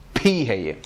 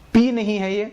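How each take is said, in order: First: پھی said with a puff of air, "phee"; aspirated demo. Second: پی said as a plain unaspirated "pee"; wrong sound named. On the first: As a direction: push breath out on پھی. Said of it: "puff of air آ رہی ہے". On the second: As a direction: say پی with no puff of air, as the wrong form. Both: Shown as a demonstration.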